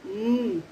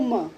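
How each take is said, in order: First: The m sound is a bare closed-lip hum. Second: The m sound is followed by a vowel. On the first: The speaker calls it right. "M for mm" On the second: The speaker calls it wrong. "No ma"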